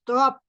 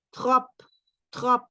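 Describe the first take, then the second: First: "trop" with a sounded P; "trop" ending in a P; wrong trop. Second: "trop" said "tro", P silent; "trop" with no P at the end; correct trop. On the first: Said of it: "no decimos trop". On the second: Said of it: "La P no suena". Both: Shown as a demonstration.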